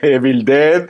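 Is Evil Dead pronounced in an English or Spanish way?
Spanish. The title is said with Spanish-style sounds. This is how people here have always said it. The speaker calls it wrong. "Toda la vida, Evil Dead, como mucho"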